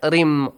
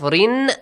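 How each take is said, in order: First: The syllable ends with a nasal m sound. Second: The syllable ends with a clear n sound. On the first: "You merge and you produce a nasal sound also" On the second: "Instead of rin"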